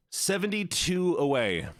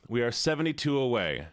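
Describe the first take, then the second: First: Higher, stretched "seventy-two away" with a dramatic pause; drawn-out announcement. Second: Said in the usual way. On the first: Real, not acted. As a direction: reveal "seventy-two away" like big news. Announcing follower count after pause.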